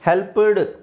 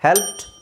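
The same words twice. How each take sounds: First: The ending is said as an extra syllable. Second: The word ends in a short t sound. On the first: The speaker calls it wrong. "ಹೆಲ್ಪ್ಡ್ ಅಡ್ ಅಂತ ಹೇಳಬಾರ್ದು" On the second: The speaker calls it right. "ಪಿ ಟಿ ಅಂತ ಹೇಳಬೇಕು"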